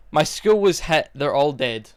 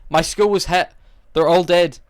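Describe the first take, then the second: First: Mock newscaster reading a tragedy with no feeling; deadpan news anchor. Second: Mock anchor, a bit louder and higher, still no feeling; hammed-up lifeless news read; deadpan news anchor, louder. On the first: Reviewer mimics the dubbed news anchor's lifeless line, mock deadpan. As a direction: read it like a bored anchor. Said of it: "That's how she says the line". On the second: Reviewer re-does the anchor's line louder, mock deadpan. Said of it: "this is her on the news".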